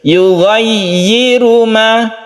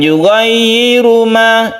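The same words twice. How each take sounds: First: The 'yi' syllable is pronounced clearly. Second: The 'yi' syllable is pronounced unclearly. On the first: The speaker calls it right. "ya-nya harus terdengar jelas yi" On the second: The speaker calls it wrong.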